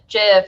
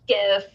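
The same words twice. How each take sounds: First: The word starts with a soft J-like sound. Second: The word starts with a hard G sound. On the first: The speaker calls it wrong. "pronounces GIF with a soft G" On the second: The speaker calls it right. "It's supposed to be GIF"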